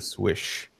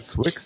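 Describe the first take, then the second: First: The name ends with an 'sh' sound. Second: The name ends with a 'ks' sound.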